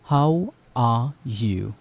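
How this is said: It is said in a British accent.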